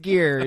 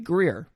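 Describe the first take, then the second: First: The name has no r after the g. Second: The name has an r after the g. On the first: "There's no way it's Gere" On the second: "I keep wanting to just be like, no, it's got to be Greer"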